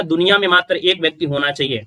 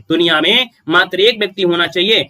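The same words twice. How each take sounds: First: Said in the usual way. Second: एक pressed a little louder on the repeat; stress on एक. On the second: Shown as a demonstration. Teacher repeats the rule to students, pressing एक. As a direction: lean on एक, the one person.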